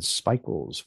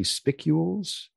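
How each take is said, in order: First: "spicules" said as SPY-kyools, long i; "spicules" tried as SPY-kyools, long i like "spy"; trying a pronunciation. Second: "spicules" said as SPICK-yools, short i; "spicules" with a short i like "spick", rising at the end; trying a pronunciation. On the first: Host tries out an unfamiliar word, tentative guess. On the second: Host offers a second reading of the word, unsure and questioning. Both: Shown as a demonstration. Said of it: "which might be spicules?".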